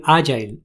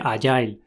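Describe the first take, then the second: First: "agile" stressed on A, A-jail; acento esdrújulo inicial. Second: "agile" stressed on the end, a-JAIL; pronunciación española. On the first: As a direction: hit the first syllable of "agile". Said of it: "se pronuncia más bien". ("agile" con acento en la a) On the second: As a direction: say "agile" with weight on the last syllable. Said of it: "oigo en España decir". ("agile" con acento al final) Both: Shown as a demonstration.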